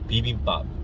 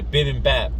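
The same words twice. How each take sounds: First: It is said with a native Korean accent. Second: It is said with an American English accent. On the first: "in my native tongue and accent, I would say" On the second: "it's literally looks like you're supposed to say"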